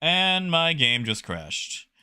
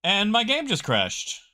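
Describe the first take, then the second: First: Slow, dragged-out despair; deflated repeat. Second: Sudden high dismay at the crash; shocked. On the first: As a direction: let it sink in slowly. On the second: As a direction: blurt it out in disbelief. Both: Real, not acted.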